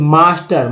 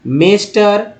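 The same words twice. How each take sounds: First: "मास्टर" with open AA after M; long AA vowel. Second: "मेस्टर" with AY in the first syllable; wrong E vowel. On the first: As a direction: say "मास्टर" as "maa-ster". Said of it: "म में आ लग गया". ("मास्टर" में म के साथ आ की आवाज़) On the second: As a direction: say "मेस्टर" as "may-ster", higher pitched. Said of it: "ये सभी जगह ए उच्चारण करेंगे". ("मेस्टर" में आ की जगह ए की आवाज़) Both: Shown as a demonstration.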